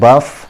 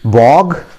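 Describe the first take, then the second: First: The word rhymes with cough, ending in f. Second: The word ends in a hard g sound. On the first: "जैसे वो कफ को बोलते हैं, उसी तरीके से बफ" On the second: "कुछ लोग इसको बॉग भी बोलते हैं"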